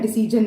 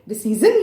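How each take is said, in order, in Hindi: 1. बीच का व्यंजन कठोर 'j' ध्वनि है। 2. बीच का व्यंजन कोमल 'zh' ध्वनि है। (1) "नहीं" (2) "डिसीजन या डिसीजन नहीं"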